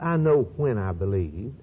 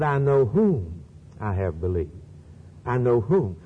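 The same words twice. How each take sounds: First: "when" lifted and stressed, a rising tune. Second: "whom" pressed hard, then repeated alone; stress on whom. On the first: Preacher contrasting Paul's words for the audience, stressing "when". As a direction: lean on "when" as the wrong emphasis. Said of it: "It's not". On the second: Preacher correcting the quote for the audience, stressing "whom". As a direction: hit "whom" and land it firmly. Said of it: "He said". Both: Shown as a demonstration.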